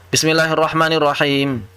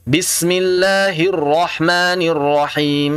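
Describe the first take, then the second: First: "Bismillahirrahmanirrahim" run together with single, unheld consonants; dropped tasydid. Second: "Bismillahirrahmanirrahim" slowly, with doubled l and r held; correct tasydid. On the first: Teacher shows the faulty reading, "Bismillahirrahmanirrahim" without tasydid. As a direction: say "Bismillahirrahmanirrahim" quickly, doubling no consonants. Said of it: "Karena hilang tasydid".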